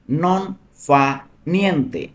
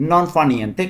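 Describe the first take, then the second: First: "নন", "ফা", "নিয়েন্তে" split apart with a pause after each; word by word. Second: Said in the usual way. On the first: Shown as a demonstration. Teacher splitting "নন ফা নিয়েন্তে" into single words for students. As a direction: break the phrase into separate words so learners catch each one. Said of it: "teacher drills Italian phrase". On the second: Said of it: "teacher repeats whole phrase".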